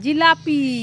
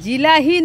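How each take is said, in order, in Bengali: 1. মাঝের ব্যঞ্জনটি p ধ্বনি। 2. মাঝের ব্যঞ্জনটি h ধ্বনি। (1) "ওটা জিলাপি" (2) "ওটা জিলাহি নয়"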